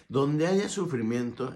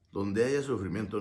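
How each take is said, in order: First: "Donde haya sufrimiento" slow, with a lift on "haya"; emphatic stress. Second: Said in the usual way. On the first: Shown as a demonstration. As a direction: lean slowly on "haya" to drive the point home. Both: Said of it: "entiéndelo".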